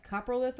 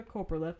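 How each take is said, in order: First: Coprolith said "KAH-pruh-lith"; first syllable of Coprolith rhymes with "top"; short-o pronunciation. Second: Coprolith said "KOH-pruh-lith"; first syllable of Coprolith rhymes with "hope"; long-o pronunciation. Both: Shown as a demonstration. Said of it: "I don't know how to say the actual name".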